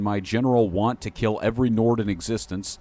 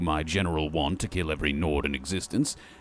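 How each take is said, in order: First: It is said in the speaker's normal voice. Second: It is said in a strained put-on character voice. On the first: The speaker calls it wrong. "I didn't do that in the voice" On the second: The speaker calls it right. "every time I do that voice, it's really starting to wear and tear on my throat"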